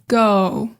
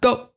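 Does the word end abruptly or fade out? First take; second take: fades out; abruptly. First: The word's ending gently fades out. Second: The word ends with a hard, abrupt stop. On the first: The speaker calls it right. "it kind of just does fade out" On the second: The speaker calls it wrong. "It's not go"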